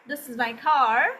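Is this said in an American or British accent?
American. It is said in an American accent. "this is American accent"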